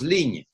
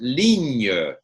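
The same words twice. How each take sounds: First: The word ends on the consonant, no vowel. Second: A faint vowel sound follows the final consonant. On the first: "we don't hear E. It just goes ligne" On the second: "you can pronounce it ligne"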